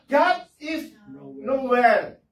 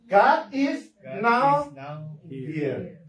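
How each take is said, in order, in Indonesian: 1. Bagian terakhir diucapkan sebagai satu kata. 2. Bagian terakhir dipisah menjadi dua kata. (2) "ini bisa dibaca God is now here"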